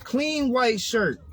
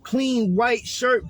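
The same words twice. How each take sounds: First: Slow emphasis. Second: Slow, savoring each word; slow emphasis. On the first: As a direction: repeat it slow and proud. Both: Shown as a demonstration.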